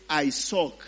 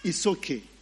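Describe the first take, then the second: First: The name has an English-style pronunciation. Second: The name has a Hebrew-style pronunciation. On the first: The speaker calls it wrong. "Now that would be English" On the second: The speaker calls it right. "Hebrew names and words are supposed to be pronounced not in an English way"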